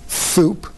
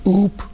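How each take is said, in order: First: The first consonant is a th sound. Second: The first consonant is left out entirely. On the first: A lisp that is fine at three. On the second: An early stage of a child's speech.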